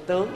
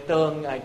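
First: The word is said with a rising tone. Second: The word is said with a level tone. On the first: The speaker calls it wrong. "đừng đọc với tướng nha" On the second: The speaker calls it right. "Chữ tương"

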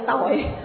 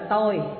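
First: The word is said on a low glottalized tone. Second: The word is said on a level tone. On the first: It means sin or crime. "hạ dấu nặng nó ra chữ tội" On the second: It means I or me. "Chữ ngã đó được dịch ra là tôi"

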